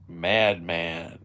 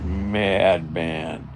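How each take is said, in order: First: The word is said in a steady voice. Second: The word is said with a trembling voice.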